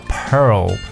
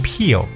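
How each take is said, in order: First: The vowel is an 'er' sound with r-colouring. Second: The vowel is a long 'ee' sound. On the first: The speaker calls it right. "那这个词叫pearl" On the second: The speaker calls it wrong. "我发现很多的这个听友呢会把珍珠这个词读peel"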